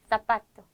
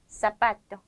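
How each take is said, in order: First: The z is pronounced as a th sound. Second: The z is pronounced as a sharp s. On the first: This is how it is said in Spain. "사파토 번데기 하셔도 되고요" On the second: This is how it is said in Latin America. "중남미에서는 쌍시오"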